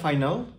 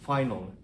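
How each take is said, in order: First: The final syllable has a full vowel. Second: The final syllable is reduced and weak. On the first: The speaker calls it wrong. "আমরা সবাই ভাবি এটা ফাইনাল" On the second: The speaker calls it right. "আসলে উচ্চারণ ফাইনাল"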